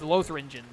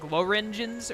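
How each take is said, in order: First: The name is said with a th sound. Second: The name is said without a th sound. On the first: "there's a T H, so I would pronounce it as Lothringen" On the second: "it had a T H in it that was silent"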